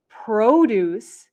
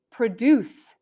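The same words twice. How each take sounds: First: Produce as PRO-duce, long first O; noun stress on first syllable. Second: Produce as pruh-DUCE, short weak first syllable; verb stress on second syllable. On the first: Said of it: "Produce is a noun". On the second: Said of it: "produce is a verb". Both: Shown as a demonstration.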